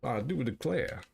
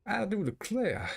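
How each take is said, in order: First: Light southern gentleman voice; old southern gentleman. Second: Exaggerated southern gentleman; old southern gentleman. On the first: Acted. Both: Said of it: "talk like an old southern slave owner".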